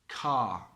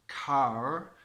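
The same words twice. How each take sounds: First: The final R is silent, ending on a vowel. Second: The final R sound is pronounced. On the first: The speaker calls it right. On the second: The speaker calls it wrong.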